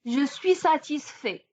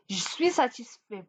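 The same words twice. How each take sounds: First: Said in the usual way. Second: «je suis» said as «j'suis», E swallowed; casual «j'suis satisfait»; dropped E. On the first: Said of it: "Et on dit". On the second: Shown as a demonstration. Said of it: "voilà l'apostrophe".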